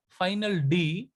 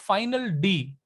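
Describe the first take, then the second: Both takes have the same delivery.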